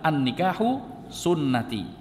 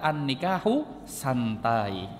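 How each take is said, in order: First: The last word is pronounced sunnati. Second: The last word is pronounced santai. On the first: Marriage is the prophet's practice. The speaker calls it right. "Harusnya dibacanya sunnati" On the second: Marriage is something relaxed. The speaker calls it wrong. "karena nggak ada harokatnya dibaca an-nikahu santai"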